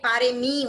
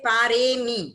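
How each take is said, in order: First: The vowel before 'mi' is short. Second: The vowel before 'mi' is held long. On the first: The speaker calls it wrong. "बाकी पारेमी हो जाता है" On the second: The speaker calls it right. "तो ऐसे बोलेंगे"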